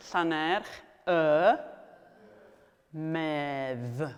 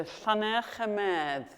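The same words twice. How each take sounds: First: "Llanerch", "y", "medd" said slowly with long pauses between; split up word by word. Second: Said in the usual way. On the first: Shown as a demonstration. Teacher splitting a place name for learners, "Llanerch y medd" in slow separate pieces. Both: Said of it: "So I've split it up for you".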